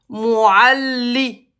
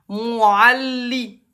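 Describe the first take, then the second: No difference in how they are said.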